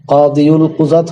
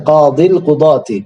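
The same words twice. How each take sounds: First: কাদিউল কুজাত said wrongly with an extra u after কাদি; the mistaken form কাদিউল কুজাত, keeping the ু sound; wrong pronunciation. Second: Slow careful কাদিল কুদাতি with no u after কাদি; slow correct Arabic: কাদিল কুদাতি; correct pronunciation. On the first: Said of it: "হয় না". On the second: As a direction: spell out কাদিল কুদাতি slowly, ending on ি. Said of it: "কাদিউল কুজাত হয় না". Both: Shown as a demonstration.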